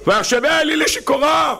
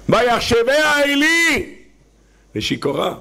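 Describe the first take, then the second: First: High shouted לשיכורה; proclaimed verse. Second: High, slow, drawn-out chant of ויחשביה עלי; dramatic verse. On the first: (קריאה בקול רם וגבוה) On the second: Quoting Hannah's verse dramatically. (פסוק בקול גבוה ואיטי) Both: Acted.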